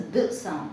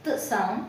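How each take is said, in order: First: TH as a voiced ద sound. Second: TH as a voiceless త sound; unvoiced TH. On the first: Teacher contrasts two th sounds, voiced TH second. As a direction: say TH with voice, as in brother. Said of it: "T H gives th sound". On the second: Teacher contrasts two th sounds, unvoiced TH first. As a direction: say TH without voice, as in broth. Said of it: "టీహెచ్ gives th sound". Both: Shown as a demonstration.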